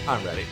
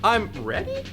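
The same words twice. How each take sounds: First: It sounds firm and confident. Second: It sounds hesitant and unsure. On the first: The speaker is sure of being ready. The speaker calls it right. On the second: The speaker doubts being ready. The speaker calls it wrong.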